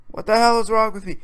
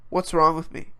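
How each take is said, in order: First: Louder, higher self-reproach; raised voice, exasperated at oneself; exasperated outburst. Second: Said in the usual way. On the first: Real, not acted. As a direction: scold yourself in exasperation. Self-reproach, escalating repeat.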